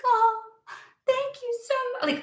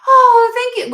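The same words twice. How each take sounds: First: Very high, softer, syrupy fake thanks; mock grateful. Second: Sudden high, loud, sarcastic oh thank you; mock grateful gush. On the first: Mocking the expected thanks after waiting so long, high and soft. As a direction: sweeten it into hollow gratitude. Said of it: "supposed to just be like". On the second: Mocking people left with scraps, a loud, high fake thanks. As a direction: gush with overdone gratitude. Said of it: "expecting them to be like".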